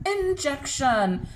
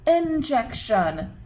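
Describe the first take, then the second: First: Said in the usual way. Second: "Injection" drawn out slowly. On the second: Shown as a demonstration. Teacher sounding out a word for children, slow "Injection". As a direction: stretch "Injection" so each sound is heard. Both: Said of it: "Let's say it slowly".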